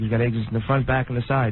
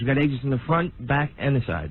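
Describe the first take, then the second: First: The words are mumbled and hard to understand. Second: The words are spoken clearly and distinctly. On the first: "He's learned to mumble as an actor?" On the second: "Do it clear"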